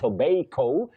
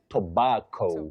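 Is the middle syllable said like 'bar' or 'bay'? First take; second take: bay; bar. First: The middle syllable sounds like 'bay'. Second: The middle syllable sounds like 'bar'. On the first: It sounds affected and stylish. The speaker calls it wrong. "Some people may find it a bit stylish saying" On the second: It is standard English. The speaker calls it right. "You say bar, not bay"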